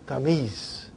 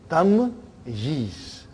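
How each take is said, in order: First: The middle y sound is dropped, said quickly. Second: The middle y sound is clearly pronounced. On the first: This is the casual form used in quick speech. "when we say quickly" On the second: This is the full, proper form of the word. "Actually, it is tamyiz"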